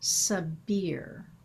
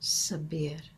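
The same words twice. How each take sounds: First: It has an English pronunciation without a rolled R. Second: It has an Arabic pronunciation with a soft rolled R. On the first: "in English pronunciation, we tend to say" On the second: "in Arabic, the pronunciation sounds like Sabir... closes with this soft R that rolls"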